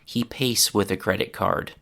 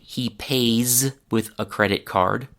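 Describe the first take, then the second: First: The final sound of 'pays' is a voiceless s. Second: The final sound of 'pays' is a voiced z. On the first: The speaker calls it wrong. "I hear Polish and Spanish speakers say something more like" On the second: The speaker calls it right. "where I would say"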